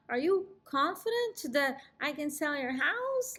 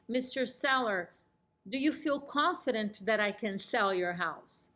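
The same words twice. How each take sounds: First: Higher, odd unsure question; weird doubtful. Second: Calm, assured question with a downswing; confident and warm. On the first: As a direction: ask it awkwardly, full of doubt. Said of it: "Like, really weird and shaking my head no". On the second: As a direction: ask it warmly, sure of yourself. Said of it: "You see how I'm nodding yes and I'm smiling?". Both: Shown as a demonstration.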